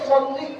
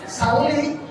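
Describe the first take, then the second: First: It starts with a heavy, emphatic s sound. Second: It starts with a plain, light s sound. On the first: It asks for blessings. The speaker calls it right. "bagus sih baca itu sholli" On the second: It means to kill. The speaker calls it wrong. "salli itu artinya bunuh"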